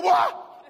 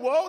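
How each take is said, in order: First: WHOA shouted high and loud; emphatic alarm. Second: Said in the usual way. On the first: Shown as a demonstration. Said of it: "He was saying". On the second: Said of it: "He wasn't just saying".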